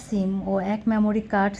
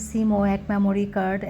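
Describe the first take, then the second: No difference in how they are said.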